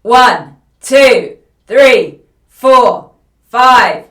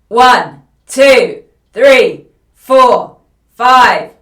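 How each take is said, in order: First: The voice is loud and tightly pressed. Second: The same.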